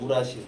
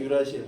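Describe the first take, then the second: First: The word begins with an 'oo' sound. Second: The word begins with a 'yoo' sound. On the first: This is the older German-style name. "이건 독일식 발음인데 우라실이라 그랬었는데" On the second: This is the current English-based name. "영어로 넘어오면서 유라실로 바뀐 거예요"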